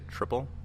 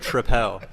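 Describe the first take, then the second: First: The ending does not rhyme with Citadel. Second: The ending rhymes with Citadel. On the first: "I would say triple" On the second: "now we need it to rhyme"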